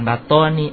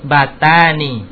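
First: The vowel after the t sounds like 'o'. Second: The vowel after the t sounds like 'a'. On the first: The speaker calls it wrong. "Bukan batoni" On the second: The speaker calls it right. "batani. Ta"

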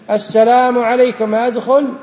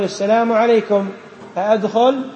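First: It is said in a much louder voice. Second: It is said at normal volume. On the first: The people inside did not hear the second request. "ما سمعوك، فارفع صوتك أشد" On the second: This is the first request to enter. "الأول يقول"

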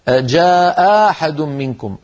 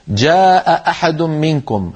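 First: One glottal stop becomes a long vowel. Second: Both glottal stops are clearly pronounced. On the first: "أو أبدلوها ألفا" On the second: "التقى همزتان"

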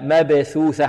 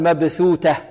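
First: Both middle consonants are soft th sounds. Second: The first is th, the second is t. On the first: The speaker calls it right. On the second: The speaker calls it wrong. "ولا نقول مبثوتة"

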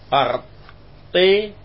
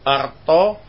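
First: The final vowel is tilted toward 'e' or 'i'. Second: The final vowel is a plain open 'a'.

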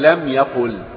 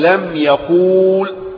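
First: The vowel before the final consonant is short. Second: The vowel before the final consonant is long. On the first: The speaker calls it right. "إذن فأقول لم يقل" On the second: The speaker calls it wrong. "فلا أستطيع أن أنطق وأقول لم يقول"

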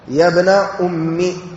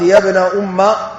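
First: The last word ends with an 'i' vowel. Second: The last word ends with an 'a' vowel. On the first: The word is treated as a possessive, 'my mother'. "على الإضافة" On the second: The two words are fixed as one compound unit. "مبنية على فتح الجزئين"

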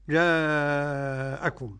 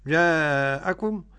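First: The long vowel is held for five beats. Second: The long vowel is held for four beats. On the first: "خمسة" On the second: "أربع حركات"

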